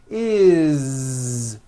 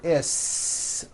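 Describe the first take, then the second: First: The ending has a voiced z sound. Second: The ending has an unvoiced s sound. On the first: The speaker calls it right. "It's always is with a voiced Z" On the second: The speaker calls it wrong. "It's never is, unvoiced, never"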